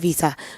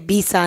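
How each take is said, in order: First: It is said with a standard English pronunciation. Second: It is said with a non-native accent. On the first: This is how a fluent speaker says it. The speaker calls it right. "instead of visa" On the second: This is how a non-fluent speaker said it. The speaker calls it wrong. "She used to say visa"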